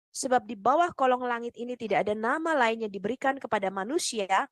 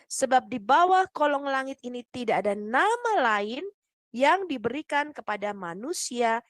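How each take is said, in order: First: The sentence is read at a faster pace. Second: The sentence is read at a slower pace. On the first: The speaker calls it wrong. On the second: The speaker calls it right.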